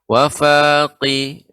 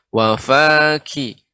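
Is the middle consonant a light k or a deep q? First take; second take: deep q; light k. First: The consonant is a deep throat q sound. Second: The consonant is a light front k sound. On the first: The speaker calls it wrong. "berubah ke huruf qaf" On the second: The speaker calls it right. "akan tapi wafaki"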